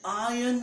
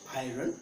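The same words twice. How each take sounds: First: The R sound is left silent. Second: The R sound is clearly pronounced. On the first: The speaker calls it right. "Here R is silent" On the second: The speaker calls it wrong. "Not iron"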